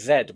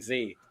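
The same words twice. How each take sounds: First: The letter name is said the British way. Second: The letter name is said the American way. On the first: "So we say Z" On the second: "we don't say Z"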